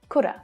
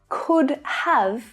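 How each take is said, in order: First: Have becomes a short uh, with no v. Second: The word have is pronounced in full. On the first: "you might not even hear that v sound" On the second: "Could have is often said could've"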